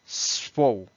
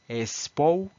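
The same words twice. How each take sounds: First: The word starts directly with the s sound. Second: An extra e vowel comes before the s. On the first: The speaker calls it right. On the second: The speaker calls it wrong.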